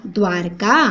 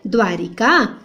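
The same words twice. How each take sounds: First: "द्वारका" as dwaar-ka; no i after r in "द्वारका"; low, two-syllable "द्वारका"; corrected form. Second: "द्वारिका" as dwaa-ri-ka; slow three-syllable "द्वारिका"; first form, with i. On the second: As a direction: sound the i in "द्वारिका". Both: Shown as a demonstration. Two forms of a word contrasted.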